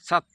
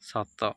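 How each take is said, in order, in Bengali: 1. শব্দটি স্বরহীন 't' ব্যঞ্জনধ্বনি দিয়ে শেষ হয়। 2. শব্দটি 'a' স্বরধ্বনি দিয়ে শেষ হয়। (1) "ହଣତ ଦେଲେ" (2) "ହଣତ କାଟିଦେଲେ"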